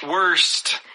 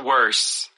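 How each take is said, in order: First: The word ends with a clear final T sound. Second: The word ends without a final T sound. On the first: The speaker calls it right. "put the T" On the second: The speaker calls it wrong. "we don't put the T on there"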